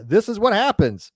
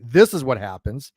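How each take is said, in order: First: "what" stressed, slow and falling. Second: "this" stressed and rising, lower. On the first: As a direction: lean on "what", not "this". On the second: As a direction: hit "this" with a rising tune. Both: Shown as a demonstration. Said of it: "I'm sorry, this is what happens".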